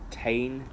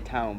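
First: The vowel is twisted into a local twang. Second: The vowel is said in standard English. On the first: "it'll be like, Tain ... got a twang" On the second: "They'll say town"

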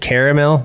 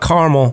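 First: The word is said with three syllables. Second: The word is said with two syllables. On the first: The speaker calls it right. "It is caramel" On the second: The speaker calls it wrong. "not caramel, by the way. Caramel. Carmel's a city"

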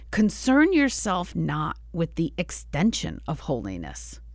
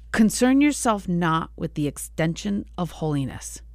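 Both takes have the same delivery.

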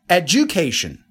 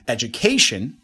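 First: The stress falls on the second syllable. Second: The stress falls on the third syllable. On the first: The speaker calls it wrong. "Second one" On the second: The speaker calls it right. "Number three"

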